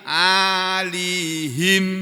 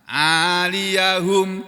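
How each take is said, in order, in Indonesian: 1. Ya tidak memakai vokal; akhirannya him. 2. Ya memakai vokal a; akhirannya hum. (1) "ya-nya disukun, ... di kasrohnya huruf ha" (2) "Kali ini kan di fathah"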